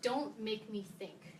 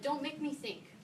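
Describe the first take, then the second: First: Slow, each word weighed, stress on Don't; slow emphatic title quote. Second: Lifted pitch on "Don't make me think", "Don't" hit high; higher repeat of the title. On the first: Quoting the book title to the class, slow and emphatic. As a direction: spell out "Don't make me think" slowly, leaning on "Don't". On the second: Repeating the book title to the students, higher and lighter. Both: Shown as a demonstration. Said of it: "to quote the title of my favorite user experience book".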